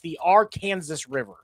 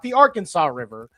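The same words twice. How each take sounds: First: It is said the Kansas local way. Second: It is said the usual way elsewhere.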